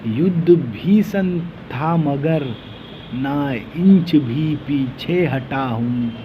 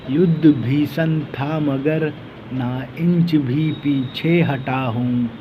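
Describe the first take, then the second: No difference in how they are said.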